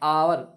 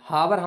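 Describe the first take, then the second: First: The word begins with a plain vowel sound. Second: The word begins with an audible h sound. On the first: The speaker calls it right. "बल्कि आवर बोलेंगे, आवर, आ की आवाज़ निकलेगी" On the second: The speaker calls it wrong. "हावर हम नहीं बोलेंगे"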